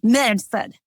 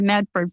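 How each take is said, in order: First: It is said in a gravelly Boston accent. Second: It is said in a standard accent. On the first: "with a gravelly uh, accent" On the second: "instead of Medford"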